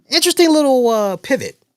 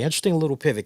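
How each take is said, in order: First: Surprised. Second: Said in the usual way. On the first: Real, not acted. Surprised remark on a show twist.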